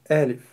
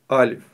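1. Слово произносится мягко. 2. Слово произносится слишком твёрдо. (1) "произносится она мягко" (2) "говорят слишком твердо"

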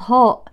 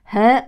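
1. الحرف الأول مفخم، صوته غليظ. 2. الحرف الأول مرقق، صوته رقيق. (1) "وليست" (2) "والحرف المرقق اسمه مرقق"

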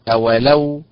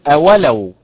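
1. النبر على المقطع الأخير. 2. النبر على المقطع الثاني. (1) "بالنبر على حركة اللام" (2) "وليست أولو بالنبر على حركة الواو"

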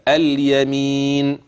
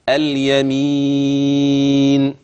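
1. يُمَدّ الحرف الذي قبل النون مدًّا قصيرًا. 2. يُمَدّ الحرف الذي قبل النون مدًّا متوسطًا. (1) "حركتين حركتين وأنا مسكن النون" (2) "أربعة برضو وأنا مسكن النون"

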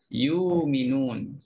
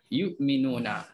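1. Hamzah itu berubah menjadi vokal panjang. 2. Ada hamzah yang jelas di tengah. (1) "hamzah kena bertukar. Bertukar jadi mad di sini" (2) "matikan betul-betul hamzah"

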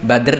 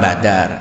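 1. Di akhirnya ada gugus konsonan tanpa vokal tambahan. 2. Ada vokal yang disisipkan di antara d dan r. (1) "Sama dengan Badr" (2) "Perang Badar. ... itu lidah kita seperti itu"

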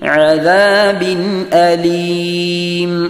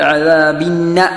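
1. അലീമിന് മുമ്പായി ഹംസ വ്യക്തമായി ഉച്ചരിക്കപ്പെടുന്നു. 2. ഹംസ ഒഴിവാക്കപ്പെടുന്നു, അതിനാൽ നൂൻ ഇരട്ടിക്കുന്നു. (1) "നല്ല രൂപത്തിൽ ഐനും മൊഴിയുക, ഹംസയും മൊഴിയുക" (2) "ആ ഹംസ കളയപ്പെട്ടാൽ അദാബിന്ന എന്നൊരു ഷദ്ദുള്ള നൂനിനെ കൊടുത്തോതും പിഴവായിട്ട്"

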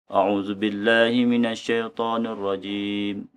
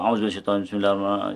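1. Dibaca dengan pelan dan tertib. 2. Dibaca dengan cepat dan tergesa-gesa. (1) "Dia baca suara tertib" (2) "baca kalut-kalut"

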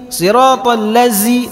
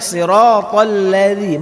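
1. Konsonan dalam ladzi terdengar seperti z. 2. Konsonan dalam ladzi terdengar seperti th yang lembut. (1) "siratal ladzi salah" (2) "Tapi bacanya siratal ladzi"

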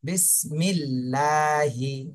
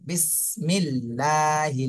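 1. ল ধ্বনিটি হালকা ও চিকন। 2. ল ধ্বনিটি হালকা ও চিকন।

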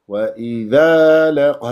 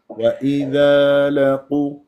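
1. فيها نبرة إضافية مفاجئة. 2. تنساب العبارة بسلاسة دون نبرة مفاجئة.

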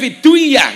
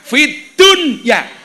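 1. Bunyi d menyatu dengan kata berikutnya. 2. Bunyi d diucapkan jelas dan terpisah. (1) "Niku berarti bacaan apa? Idham" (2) "napa kok fid dunya itu dibaca idhar?"

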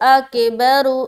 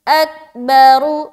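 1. k के बाद एक अतिरिक्त 'e' स्वर ध्वनि आती है। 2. k सीधे b में जाता है, कोई स्वर नहीं। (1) "बाज़ औक़ात लोग पढ़ते अकेबरु ... ये गलत है। आके आके ऐसा साउंड नहीं आना।" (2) "बिल्कुल साफ सुथरी आवाज में पढ़नी है"

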